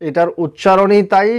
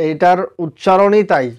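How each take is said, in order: The two takes are said the same way.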